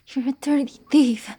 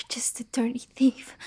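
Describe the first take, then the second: First: Said in the usual way. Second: Soft, whispered dirty thief; whispered insult. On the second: Acted. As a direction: hiss it quietly with a rise. Repeats insult in two ways.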